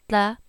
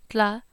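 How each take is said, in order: No difference in how they are said.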